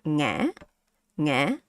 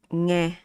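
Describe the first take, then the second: First: "nghe" dipping, then rising; questioning tone. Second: "nghe" held level, relaxed; flat tone. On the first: Teacher adding the question mark, rising "nghe". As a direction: lift the end of "nghe" like asking. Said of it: "It's like you ask a question". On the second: Teacher showing the unmarked word, level "nghe". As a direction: say "nghe" evenly with no rise. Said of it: "This one is flat". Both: Shown as a demonstration.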